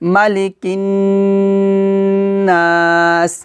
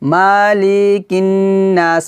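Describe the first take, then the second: First: The vowel in the first syllable is kept short. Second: The vowel in the first syllable is stretched long. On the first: The speaker calls it right. "মালি মালি দুটোই হরকত, টান দিতে পারবো না" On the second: The speaker calls it wrong. "আমরা কিন্তু এভাবে পড়ি মালিকিন নাস, মানে এভাবে মালি এগুলোতে টান দেই"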